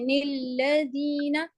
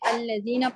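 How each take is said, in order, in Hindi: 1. शब्द 'n' ध्वनि से शुरू होता है। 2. शब्द 'a' ध्वनि से शुरू होता है। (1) "ये गलत है" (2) "आपने अल्लज़ीना पढ़ना होता है"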